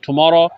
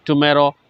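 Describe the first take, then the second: First: 'Tomorrow' with an open 'aw' in the middle; tomorrow with 'aw'. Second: 'tomorrow' with an 'ay' in the middle; tomorrow with 'ay'. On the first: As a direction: say Tomorrow as "tu-MAW-ro". (Tomorrow को "टुमॉरो" बोलें) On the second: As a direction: say tomorrow as "tu-MAY-ro". (tomorrow को "टुमेरो" बोलें) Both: Shown as a demonstration. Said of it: "दोनों तरीके से पढ़ सकते हैं".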